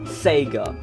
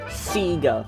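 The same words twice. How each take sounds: First: The name is pronounced the non-Australian way. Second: The name is pronounced the Australian way. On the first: "and not Sega" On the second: "over here in Australia, we pronounce it Sega"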